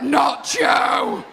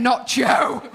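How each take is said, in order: First: Mock shout. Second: Said in the usual way. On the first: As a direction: yell "Not Joe" like heckling fans. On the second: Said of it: "Why is everyone saying".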